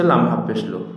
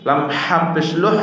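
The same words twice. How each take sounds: First: "হা" and "লুহ" with a light h, said quickly; lighter mouth-made ha. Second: "হা" and "লুহ" with a strong throat h, pitched up; throat-made ha. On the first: Teacher shows the second of two letters, light "হা" and "লুহ". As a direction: let the h of "লুহ" out lightly, without throat pressure. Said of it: "মুখ থেকে।". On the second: Teacher shows the first of two letters, throaty "হা" and "লুহ". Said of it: "একটা হলকের থেকে আর একটা". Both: Shown as a demonstration.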